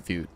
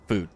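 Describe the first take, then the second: First: "food" slipped into "fyood", with a y-glide; mispronounced food. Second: Said in the usual way. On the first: Real, not acted. Streamer stumbling over Southern food, "food" said as "fyood". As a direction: say "food" as "fyoo", like "few". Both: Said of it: "What the hell is wrong with me?".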